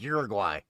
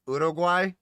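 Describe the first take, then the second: First: The name has the usual American pronunciation. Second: The name has a non-American, local-style pronunciation. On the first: This is how people in America say it. "you're in America, it's like Uruguay" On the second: This is how the other speaker says it. "is that how you're actually supposed to pronounce it?"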